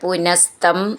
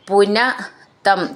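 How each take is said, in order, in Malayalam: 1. ഈ രണ്ട് വാക്കുകളും ഒരൊറ്റ ശബ്ദമായി ചേർന്നാണ് പറയുന്നത്. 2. ഈ രണ്ട് വാക്കുകളും വെവ്വേറെയാണ് പറയുന്നത്.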